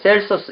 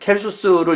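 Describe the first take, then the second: First: The name begins with an S sound. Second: The name begins with a K sound.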